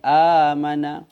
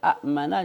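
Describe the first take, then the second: First: The first vowel is long with no glottal stop. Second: A glottal stop follows the first vowel. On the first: This is the changed actual form. "maka hamzah tu kita ubah jadi alif" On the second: This is the original underlying form. "Daripada a'mana"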